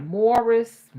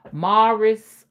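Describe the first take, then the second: First: MORRIS with a rounded "or" vowel; own pronunciation. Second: MORRIS with an open "ah" vowel; other pronunciation. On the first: Mom comparing versions, Morris as "MORE-iss". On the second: Mom comparing versions, Morris as "MAR-iss". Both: Shown as a demonstration. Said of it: "I don't know which one is right".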